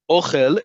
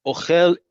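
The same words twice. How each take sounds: First: "Ochel" stressed OH-khel, slow and clear; first-syllable stress. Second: "Ochel" stressed o-KHEL, slow and higher; last-syllable stress. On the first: Teacher recaps the word for food, stress on OH in "Ochel". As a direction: lean slowly on the O of "Ochel". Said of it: "emphasis on the first syllable". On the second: Teacher recaps the verb eats, stress on KHEL in "Ochel". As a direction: stretch and punch khel in "Ochel". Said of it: "accent on the last syllable". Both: Shown as a demonstration.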